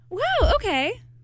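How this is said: It sounds supportive and sincere.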